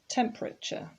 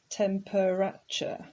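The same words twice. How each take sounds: First: The word is said with only three syllables. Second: The word is said with four full syllables. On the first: The speaker calls it right. "It actually only has three syllables" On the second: The speaker calls it wrong. "it looks like it's temperature, but it's not"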